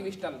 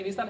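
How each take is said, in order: First: विस्टल with a t spoken after the s; wrongly sounded T. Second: Whistle with the T left silent in विसल. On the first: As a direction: mispronounce whistle as विस्टल, T sounded. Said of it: "ना कि विस्टल". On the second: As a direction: say विसल with no t sound after the s. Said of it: "विसल है, ना कि विस्टल". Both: Shown as a demonstration.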